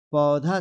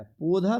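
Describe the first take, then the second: First: पौधा said as "paudha"; wide, drawn au in पौधा; correct pronunciation. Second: पौधा said as "podha"; wrong pronunciation. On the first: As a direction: open and stretch the first vowel of पौधा. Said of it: "पौधा सही है". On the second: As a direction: narrow o in पौधा. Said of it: "पौधा नहीं होता है". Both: Shown as a demonstration.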